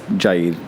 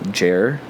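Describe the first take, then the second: First: The name ends with a d sound. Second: The name ends with an r sound. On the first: This is the original pronunciation of the name. "So it's Jaid" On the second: This is the easier pronunciation that stuck. "just kind of Jair"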